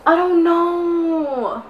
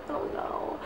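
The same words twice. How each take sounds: First: Said in the usual way. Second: Breathy whispered I don't know. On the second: Real, not acted. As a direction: drop to a whisper, giving up. Repeats herself, then whispers.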